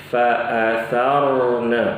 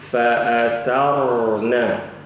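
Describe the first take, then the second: Both takes have the same delivery.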